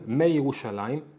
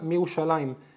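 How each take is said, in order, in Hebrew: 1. הצליל y בא אחרי ההברה הראשונה. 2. אין צליל y אחרי ההברה הראשונה. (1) "לא אומרים" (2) "אלא"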